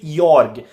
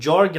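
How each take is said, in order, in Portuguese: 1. O nome começa com som de Y. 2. O nome começa com som de J. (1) "você pronuncia o J como se fosse um I" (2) "toda vez que eu leio Jorg"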